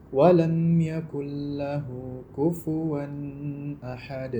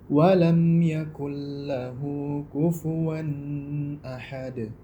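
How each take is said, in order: Both takes have the same delivery.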